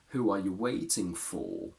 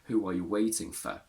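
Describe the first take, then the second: First: The final 'for' has its full, strong vowel. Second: The final 'for' is reduced to a weak vowel. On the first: The speaker calls it right. "for has a strong form because it appears at the end of the sentence" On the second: The speaker calls it wrong. "We can't say"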